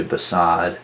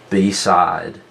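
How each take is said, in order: First: Said in the usual way. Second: "beside" split into two full syllables, BEE, SIDE; over-enunciate "beside" with a long ee in the first syllable; over-exaggerated pronunciation. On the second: Shown as a demonstration. Teacher showing students where the word divides, over-exaggerated "beside" as bee-side. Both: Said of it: "over-exaggerate the pronunciation of it".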